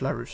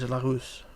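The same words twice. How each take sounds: First: The name is said with an English pronunciation. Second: The name is said with a French pronunciation. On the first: "But it's Rich Larousse" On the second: "the proper French pronunciation, it is Larousse, like that"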